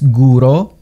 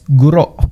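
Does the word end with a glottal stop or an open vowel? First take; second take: open vowel; glottal stop. First: The word ends on an open vowel. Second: The word ends with a glottal stop. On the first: The speaker calls it wrong. "No es guro" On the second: The speaker calls it right. "es guro. Nota el pausa glotal en el fin sílaba"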